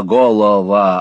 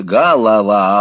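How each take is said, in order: First: "голова" loud, with round "о" vowels, golova; spelling pronunciation. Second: "голова" loud, with clear "а" vowels, galava; pronunciation contrast. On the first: Squeers shows the spelling, "голова" with full "о". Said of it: "Пишется". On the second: Squeers contrasts spelling and sound, "голова" as galava. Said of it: "а произносится". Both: A narrator's reading.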